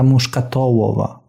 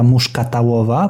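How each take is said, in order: First: The vowel after 'muszkat' is an 'o' sound. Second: The vowel after 'muszkat' is an 'a' sound. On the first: The speaker calls it right. "tylko gałka muszkatołowa" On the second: The speaker calls it wrong. "że się nie mówi gałka muszkatałowa, tak jak ja zawsze mówiłem"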